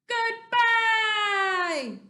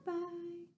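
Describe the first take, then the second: First: It is said very loudly. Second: It is said very quietly.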